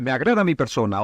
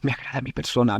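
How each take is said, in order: First: It is said loudly and with energy. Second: It is said quietly, as if to oneself.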